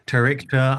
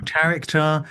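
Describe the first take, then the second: First: Tarichter, second variant, near usual pitch; preferred pronunciation. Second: Tarichter, first of two variants, pitched higher; variant pronunciation. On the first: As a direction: say "Tarichter" as your own preferred version. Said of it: "I tended to go with Tarichter". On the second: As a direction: offer "Tarichter" as one heard version, raised in pitch. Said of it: "I heard different pronunciations of it". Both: Shown as a demonstration.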